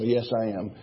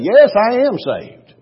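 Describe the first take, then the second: First: It is said in a dull, weary tone. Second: It is said in an excited, lively tone.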